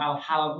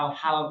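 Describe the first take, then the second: First: The vowel after h is a. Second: The same.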